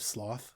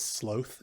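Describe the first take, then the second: First: The word is said the usual American way. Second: The word is said the British way. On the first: This is the usual way to say it. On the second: This is how the character said it.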